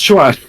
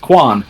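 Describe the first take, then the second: First: It begins with a 'ch' sound. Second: It begins with a 'k' sound. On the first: The speaker calls it right. "it's pronounced Chuan" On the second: The speaker calls it wrong. "No, it's not"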